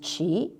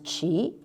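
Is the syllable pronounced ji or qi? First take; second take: qi; qi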